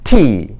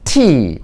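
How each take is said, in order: Both takes have the same delivery.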